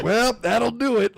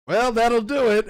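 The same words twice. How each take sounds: First: Higher, louder resigned last words through a grin; deadpan dying quip again, voice up; laughing retelling of the dying line; dying Goblin King. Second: Higher, louder resigned last words; a deadpan dying remark, voice lifted; mock dying king; dying Goblin King. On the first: Retold or imitated. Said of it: "he goes". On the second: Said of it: "he's like".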